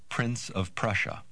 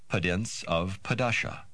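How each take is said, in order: First: The R sounds are ordinary English R sounds. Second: The R sounds are replaced by slow D sounds.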